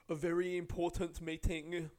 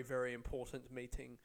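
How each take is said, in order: First: Mocking self-importance. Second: Said in the usual way. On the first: Comic sneers at the passenger's meeting, mock self-importance. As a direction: puff up "important meeting" with scorn.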